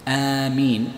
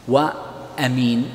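First: آمين with the first vowel drawn out long, aamiin; long alif form. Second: وأمين with a short first vowel, amiin, said slowly; short alif form. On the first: Teacher giving the long form آمين, vowel drawn out. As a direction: stretch the opening alif of آمين. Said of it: "بالمد على وزن فاعلين". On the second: Teacher giving the short form أمين, short vowel. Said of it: "على وزن فعيل". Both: Shown as a demonstration.

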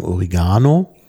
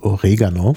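First: "Oregano" with an i and a long stressed a; common variant pronunciation. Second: "Oregano" with stress early, on the e; front-stressed German form. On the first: Host shows what many people say, "Oregano" as o-ri-GA-no. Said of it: "viele sagen Oregano". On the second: Host gives the proper German form, "Oregano" as o-RE-ga-no. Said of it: "die richtige deutsche Bezeichnung ist auch vorne betont". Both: Shown as a demonstration.

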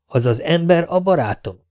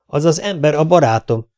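First: A startled echo, "barátom" raised as a question; taken aback. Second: Upset statement, stress on "az", higher pitch; insist, agitated, "az az ember a barátom". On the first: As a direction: repeat "az az ember a barátom" in disbelief. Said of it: "nézett rá megütközve Festano". (megütközve visszakérdez: „az az ember a barátom?”) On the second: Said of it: "vágott közbe Stanford feldúltan". (feldúlt kijelentés: „az az ember a barátom”) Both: A narrator's reading.

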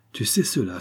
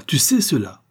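First: Said in the usual way. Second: Higher, louder second take, rising in alarm; alarmed repeat. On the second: A narrator's reading. False marquis realizes Zampa knows his secret, alarmed. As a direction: repeat it harder, pitch jumping up on "sais".

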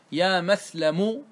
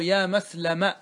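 First: يا مسلم said very slowly, final م held with damma; teacher spelling out يا مسلم slowly; drawn-out vocative demo. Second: يا مسلم at normal speed, ending on fatha; quick plain يا مسلم for contrast; plain vocative demo. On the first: Lecturer demonstrating the truncated vocative slowly. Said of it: "فلك أن تقول". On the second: Lecturer giving the second form at normal pace. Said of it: "ولك أن تقول". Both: Shown as a demonstration.

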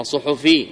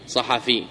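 First: صحفي said "su-hu-FI", from the plural; the faulty "suhufi" for صحفي; mistaken nisba pronunciation. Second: صحفي said "sa-HA-fi", from the singular; صحفي as "sahafi", not "suhufi"; correct nisba pronunciation. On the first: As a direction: say صحفي with short u in both first syllables. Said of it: "هذا غلط". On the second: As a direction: say صحفي with short a in both first syllables. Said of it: "أما صحفي هذا غلط". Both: Shown as a demonstration.

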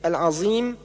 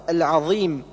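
First: العظيم with ظ as heavy z; zha as emphatic z. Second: العظيم with emphatic interdental dh; tongue between teeth, heavy ظ in العظيم; correct zha. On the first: Teacher showing the error, heavy z in العظيم. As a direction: mix ص with z in العظيم. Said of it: "والنطق بالظاء صادا مشمة بزاي". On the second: Teacher correcting, العظيم with true ظ. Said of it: "والصواب". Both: Shown as a demonstration.

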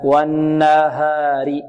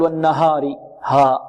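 First: Very slow chanted والنهار, long n and a light, open a; correct light ha. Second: والنهار with a thick, back-of-mouth a after the h; wrong heavy ha. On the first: Teacher correcting the heavy version, light ha. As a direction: stretch والنهار, keeping ها thin and pure. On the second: Teacher showing the opposite error, over-heavy ha. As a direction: darken ها in والنهار into a heavy haw. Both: Shown as a demonstration. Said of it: "تفخيم، لا".

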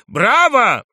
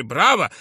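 First: High, full-voiced bravo; louder cheering shout. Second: A first loud bravo; cheering shout. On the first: Art students applaud the drunk journalist, louder cheering shout. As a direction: cheer it out at the top of the voice. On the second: Art students applaud the drunk journalist, cheering shout. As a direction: call it out as applause. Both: A narrator's reading. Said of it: "кричали".

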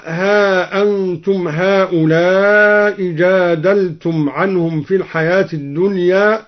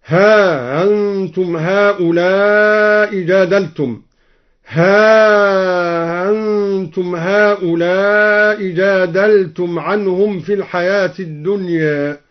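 First: Said in the usual way. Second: ها أنتم read with the hamza eased and the ā drawn long, slow; ها أنتم with tashil of the hamza, long then short; softened hamza. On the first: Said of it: "قرأ الدوري بتسهيل الهمزة مع المد والقصر". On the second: Shown as a demonstration. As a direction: ease the glottal stop of أنتم into a glide. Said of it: "بتسهيل الهمزة مع المد والقصر".

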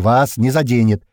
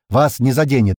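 First: Loud, slow, spaced-out "вас не заденет"; emphatic repeat. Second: Loud assurance on ВАС НЕ ЗАДЕНЕТ; firm assurance. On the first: Stranger repeats the promise, slow emphatic "вас не заденет". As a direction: stretch "вас не заденет" slowly and forcefully. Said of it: "повторяю". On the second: Stranger assures squad, firm "Вас не заденет". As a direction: say "Вас не заденет" loudly, at normal pace. First statement before repeat. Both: A narrator's reading.

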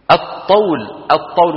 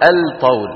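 First: الطول with no L, "at-tawl"; correct merged lam. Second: الطول with the L pronounced, "al-tawl"; wrong sounded lam. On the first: Teacher models the correct word, lam merged into emphatic T. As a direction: double the emphatic T at the start of الطول. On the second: Teacher shows what not to say, lam wrongly sounded. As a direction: sound a separate L before T in الطول. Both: Shown as a demonstration. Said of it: "ولا نقول أبدًا".

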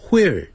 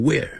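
First: WHERE as "hwere", h before the w. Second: WHERE as "were", simple w onset; where without H. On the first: Teacher voices Northeasterners teasing, "where" as hwere. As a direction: open "where" on an airy hw. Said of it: "你们把where念成where". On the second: Teacher voices Northeasterners teasing, "where" with bare w. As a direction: say "where" with no h at all. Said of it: "念成where". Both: Shown as a demonstration.

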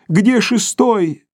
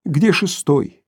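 First: Stretched plaintive call; weak cry, higher. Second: Said in the usual way. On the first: Acted. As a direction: cry it higher and slower, weakly. (слабый протяжный крик) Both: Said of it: "слабо крикнул он".

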